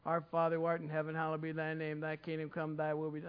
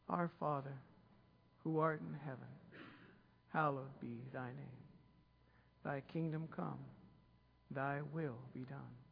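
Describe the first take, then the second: First: The prayer is rattled off quickly in a routine way. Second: The prayer is spoken slowly and deliberately. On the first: The words are recited without attention to their meaning. The speaker calls it wrong. "They started saying it like that" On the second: The words are said with attention to their meaning. The speaker calls it right. "Let's slow it down"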